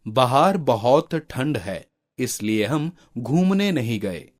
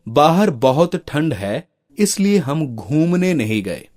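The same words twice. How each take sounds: First: बाहर said 'bahaar' with short first and long second vowel; mispronounced words. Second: बाहर said 'baahar', long first vowel; long aa opens बाहर, long u in घूमने; correct pronunciation. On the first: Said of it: "शब्दों की वर्तनी अशुद्ध है". (बाहर को 'बहार' जैसा गलत उच्चारण) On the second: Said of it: "इन वाक्यों का शुद्ध रूप होगा". (बाहर में पहला आ लंबा, शुद्ध उच्चारण) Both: Shown as a demonstration.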